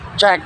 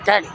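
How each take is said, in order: First: The word begins with a ch sound. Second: The word begins with a k sound. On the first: The speaker calls it right. "tapi cek" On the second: The speaker calls it wrong. "nggak kek"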